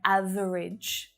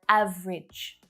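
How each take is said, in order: First: The word is said with three syllables. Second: The word is said with two syllables. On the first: The speaker calls it wrong. "the three-syllable version ... it sounds so odd to me" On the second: The speaker calls it right. "Much more common ... Two syllables only"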